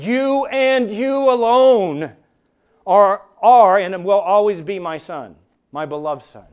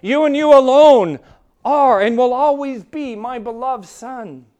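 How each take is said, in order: First: The Father speaking, slow and emphatic; emphatic divine declaration. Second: Much louder and higher on You and you alone, then slowing; preacher repeating the Father's words even louder; stronger emphatic declaration. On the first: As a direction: proclaim it as God the Father's own words. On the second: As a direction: build the Father's words to a thundering peak. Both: Retold or imitated. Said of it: "the way it is written is emphatic".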